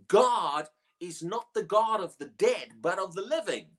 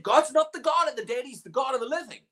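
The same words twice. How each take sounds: First: Said in the usual way. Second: "God's" lifted high and louder, the rest rushed; preacher hammering the verse; emphatic repeat. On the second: Acted. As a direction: punch "God's" and drive the line home. Quotes Jesus again with force.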